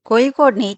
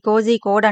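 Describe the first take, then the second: First: The middle consonant is said with a curled tongue. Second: The middle consonant is said as a z sound. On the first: The speaker calls it right. "Malayalam వాళ్ళగా నాలుక తిప్పి అనాలన్నమాట" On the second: The speaker calls it wrong. "చాలా మంది కోజీ కోడ్ అంటారు"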